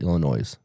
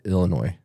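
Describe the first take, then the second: First: The final S is pronounced. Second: The final S is silent. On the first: This is how the southern half of the state says it. "They actually pronounce that, pronounce the S" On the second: This is how the northern half of the state says it. "the northern half of the state calls it Illinois"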